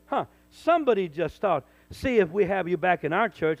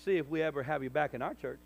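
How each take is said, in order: First: Loud, scornful quote of a threat; imitating a church board member, loudly; loud mock threat. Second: Said in the usual way. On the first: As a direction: throw the board member's words back at him. Repeating a board member's thought.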